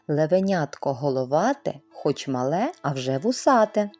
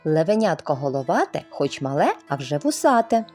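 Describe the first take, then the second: First: It is said at a slower, ordinary pace. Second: It is said at a faster pace.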